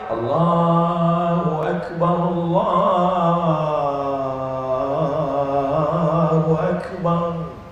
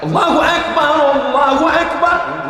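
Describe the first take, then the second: First: It is said softly and gently. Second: It is called out loudly and forcefully.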